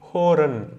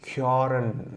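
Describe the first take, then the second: First: The first vowel is a plain 'o' sound. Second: The first vowel is a fronted 'ö' sound. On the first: The letter has no dots over it. "புள்ளி இல்லைன்னா ... பிளெயினாக சொல்லுவோம்" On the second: The letter has two dots over it. "இப்போ புள்ளி வந்ததுனால"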